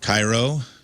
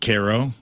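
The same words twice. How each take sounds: First: The name is said the usual Egyptian way. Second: The name is said the local Illinois way. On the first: "Cairo is pronounced" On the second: "pronounced Cairo"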